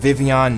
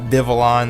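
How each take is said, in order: First: The L letters are said as a Y sound. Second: The L letters are said as an L sound. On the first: The speaker calls it right. "it is pronounced Vivillon, The L's are pronounced like a Y" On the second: The speaker calls it wrong. "not Vivillon like a lot of people think it is"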